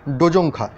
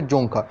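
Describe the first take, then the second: First: ডোজোংখা with the initial D sounded; D pronounced. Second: জোংখা with the D left silent. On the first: Teacher trying a doubtful reading for students, ডোজোংখা with D sounded. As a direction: say ডোজোংখা with an extra "do" syllable before "jongkha". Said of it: "ডোজোংখা মনে হয় আমার উচ্চারণটা হবে না". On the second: Teacher correcting the language name for students, জোংখা with silent D. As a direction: say জোংখা as "jongkha", starting straight on the j. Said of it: "ডিটা silent থাকে সেক্ষেত্রে উচ্চারণ হবে". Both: Shown as a demonstration.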